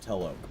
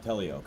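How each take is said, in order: First: The name has no extra 'ee' sound inside. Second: The name has an extra 'ee' sound inside. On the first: The speaker calls it right. "it's Teloke" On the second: The speaker calls it wrong. "it's not Telioke"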